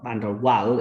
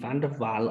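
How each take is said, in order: First: The last part starts with a W sound. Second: The last part starts with a V sound.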